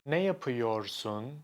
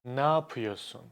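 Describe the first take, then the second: First: The phrase is said in full. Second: The phrase is said shortened. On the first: "Almost no one says" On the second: "We just say"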